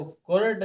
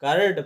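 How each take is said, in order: First: कुर्ड said with a long oo, as the wrong way; teacher models the mistaken कुर्ड, oo sound; wrong oo reading. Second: कर्ड said with a short a-like vowel, no oo; teacher models the right कर्ड, a-like sound; correct ur sound. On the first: Teacher shows pupils the wrong reading, कुर्ड with oo. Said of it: "इसको कुर्ड ना पढ़ के". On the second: Teacher shows pupils the correct reading, कर्ड without oo. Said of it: "कर्ड पढ़ना है". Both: Shown as a demonstration.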